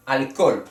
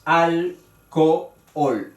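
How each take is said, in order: First: Said in the usual way. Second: "Alcohol" slowly split al-co-ol; al, co, ol in slow separate beats; three syllables. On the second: Shown as a demonstration. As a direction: break "Alcohol" between the two o's. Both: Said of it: "tiene tres sílabas".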